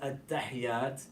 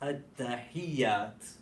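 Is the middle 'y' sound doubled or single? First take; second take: single; doubled. First: The middle y sound is single and run together. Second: The middle y sound is doubled and held. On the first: The speaker calls it wrong. "So it's not at-tahiyat" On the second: The speaker calls it right. "it's at-tahiyat"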